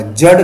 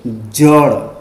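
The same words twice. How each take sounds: First: जड़ ending on a hard retroflex ḍ; wrong stop sound. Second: जड़ ending on a flicked ṛ; correct flap. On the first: Teacher warning of an error, जड़ with hard ḍ. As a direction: say जड़ as jaḍ, no flap. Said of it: "तो ये गलत होगा". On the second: Teacher giving the right answer, जड़ with flapped ṛ. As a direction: say जड़ as jaṛ, tongue flapping. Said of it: "क्या बोलेंगे". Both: Shown as a demonstration.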